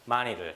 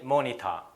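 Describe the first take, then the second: First: The t sounds like a quick d. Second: The t is a clear t sound. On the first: "R 사운드나 D 사운드 같은 걸로 변형 현상이 일어납니다" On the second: "영국 애들은... 이렇게 T 사운드를 내요"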